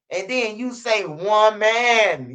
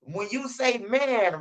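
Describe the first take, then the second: First: "one man" dragged out very slowly, "man" falling; slow stress on one man. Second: "When you say man" said slowly, hitting "say"; slow stress on man. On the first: Repeating the lesson, very slow "one man". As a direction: stretch "one man" to make them hear woman. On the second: Repeating the lesson, slow deliberate "man". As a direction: lay it out slow, leaning on "man". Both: Shown as a demonstration. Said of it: "Listen to me one more time".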